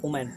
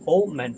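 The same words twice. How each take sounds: First: The word begins with a 'w' sound. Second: The word begins with a clear 'oh' vowel. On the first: The speaker calls it wrong. "Not" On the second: The speaker calls it right. "ओ, not डब्लू"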